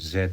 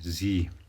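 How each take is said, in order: First: The letter is said the British way, zed. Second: The letter is said the American way, zee.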